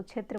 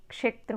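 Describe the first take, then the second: First: क्षेत्र said as "chhetra", no k sound; क्षेत्र softened to "chhetra"; common mispronunciation. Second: क्षेत्र with a full k before the retroflex sh; क्षेत्र said as "kshetra"; correct क्ष sound. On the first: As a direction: start क्षेत्र with "chh" in place of "ksh". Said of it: "कई लोग उसको क्षेत्र बोलते हैं". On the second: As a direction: begin क्षेत्र with a clear "ksh". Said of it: "ऐसा नहीं है, क्षेत्रम". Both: Shown as a demonstration.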